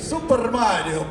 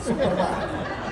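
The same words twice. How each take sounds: First: It is said in an exaggerated Italian accent. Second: It is said in the speaker's ordinary accent.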